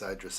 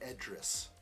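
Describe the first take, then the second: First: The first vowel is an 'eye' sound. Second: The first vowel is an 'ee' sound.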